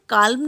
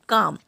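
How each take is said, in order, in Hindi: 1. L ध्वनि M से पहले उच्चारित होती है। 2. L ध्वनि M से पहले मौन रहती है।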